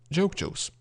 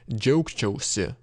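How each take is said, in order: First: The word ends with a clipped reflexive ending. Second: The word ends with its full reflexive ending. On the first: "sometimes we can shorten joke chose to joke chose" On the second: "usually we would say joke chose"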